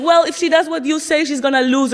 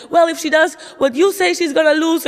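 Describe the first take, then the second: First: Raised, higher voice arguing her point; mom in argument. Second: Dad throwing the same line back, higher still; mock the dad's heated reply; dad in argument. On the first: Retold or imitated. Mom arguing with dad about the sandwich, heated raised voice. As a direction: quote mom's heated comeback, a bit louder. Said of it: "my mom was telling my dad". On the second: Dad snapping back at mom over the sandwich, raised mocking voice. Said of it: "And my dad was like".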